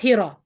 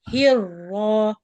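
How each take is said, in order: First: The r sound is short and single. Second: The r sound is held long and doubled. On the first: The speaker calls it wrong. "not hira" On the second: The speaker calls it right. "Longer. Stay on the first law"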